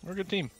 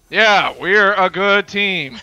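First: It is said in a sincere tone. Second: It is said in a sarcastic tone.

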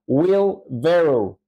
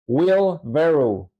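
First: The vowel in 'barrow' sounds like 'eh'. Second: The vowel in 'barrow' sounds like 'eh'.

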